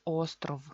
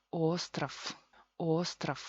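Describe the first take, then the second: First: Ostrov with clear O and voiced final v; official pronunciation. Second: Ostrov as OS-traf, ending in f; reduced pronunciation. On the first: Teacher giving the official form, voiced ending. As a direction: say ostrov as written, V sounded at the end. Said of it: "oficialmente es ostrov". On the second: Teacher showing the reduction, devoiced ending. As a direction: turn the V of ostrov into a hissed F, second O into A. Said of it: "con reducción". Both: Shown as a demonstration.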